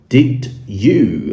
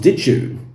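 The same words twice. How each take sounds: First: The two words are said fully and separately. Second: The two words blend together into one sound.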